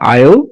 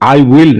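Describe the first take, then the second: First: It is contracted into a single syllable. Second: It is said in full as two words. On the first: The speaker calls it right. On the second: The speaker calls it wrong. "এটার উচ্চারণ আই উইল না"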